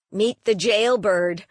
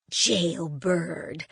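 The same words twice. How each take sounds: First: Said in the usual way. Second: Low, dismissive scoff at the word Jailbird. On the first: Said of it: "said Patty Jane". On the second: Acted. Grandmother mocking the label Jailbird, scoffing. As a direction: brush off the word Jailbird with scorn. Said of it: "scoffed my grandmother".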